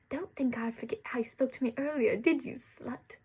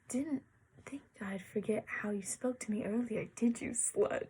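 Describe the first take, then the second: First: It is read in a spitting voice. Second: It is read in a plain voice.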